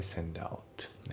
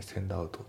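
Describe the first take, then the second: First: センドアウト linked into one smooth word; linked pronunciation. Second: Said in the usual way. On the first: Shown as a demonstration. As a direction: run センド into アウト with no break. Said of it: "リンキングでセンドアウト". (リンキングでつなげたセンドアウト) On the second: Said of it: "センドアウトじゃなくて".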